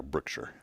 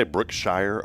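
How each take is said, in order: First: Brookshire with a reduced "-shur" ending; SHIRE as shur. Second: Brookshire ending in a full "shire", rhyming with fire; SHIRE as shy-er. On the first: Host asks co-host how to say the store, Brookshire as "Brook-shur". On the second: Host asks co-host how to say the store, Brookshire as "Brook-shy-er". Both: Shown as a demonstration. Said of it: "Do you say Brookshire or Brookshire?".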